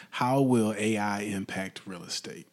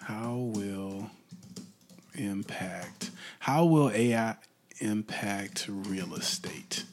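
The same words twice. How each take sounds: First: Said in the usual way. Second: Mumbled typing. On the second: Shown as a demonstration. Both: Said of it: "Let's try that one".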